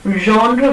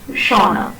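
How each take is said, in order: First: The first consonant is a voiced zh sound. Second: The first consonant is a voiceless sh sound. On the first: The speaker calls it right. "instead of saying genre" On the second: The speaker calls it wrong. "we say shauna"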